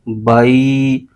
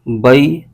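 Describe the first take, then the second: First: The sound is drawn out long. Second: The sound is cut off with a jolt. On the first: "लंबा खींच देते हैं" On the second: "झटका दे देंगे"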